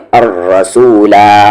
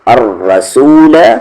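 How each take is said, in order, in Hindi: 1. शब्द का अंतिम स्वर दीर्घ 'a' है। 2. शब्द का अंतिम स्वर ह्रस्व या लुप्त होता है। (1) "वक्फ की सूरत में" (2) "वस्ल की सूरत में"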